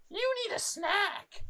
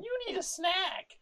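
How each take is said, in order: First: High, slow mock mumble of a strange woman; high drawn-out mock of the airport woman; mimicking a muttering stranger. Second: Mimicking a muttering stranger. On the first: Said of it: "like, over and over again". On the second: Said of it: "She says it, like, eighteen times". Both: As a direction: imitate her chanting it to herself, way up high.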